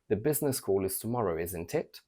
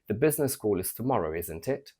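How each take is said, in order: First: The pitch rises on the final tag. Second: The pitch rises on the final tag.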